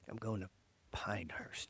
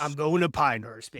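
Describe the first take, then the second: First: It is said in a soft, subtle way. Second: It is said in a loud, brash way.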